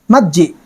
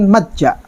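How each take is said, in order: First: The vowel before the final sound is i. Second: The vowel before the final sound is a.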